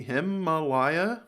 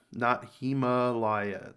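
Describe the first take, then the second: First: Himalaya said slowly, stress on LAY, rising; slow questioning Himalaya; Himalaya pronunciation. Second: Himalaya said slowly and evenly, stress on HIM; measured correction of Himalaya; corrected Himalaya. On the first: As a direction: stretch out Himalaya as the other version. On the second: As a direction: give the corrected Himalaya, slower. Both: Shown as a demonstration.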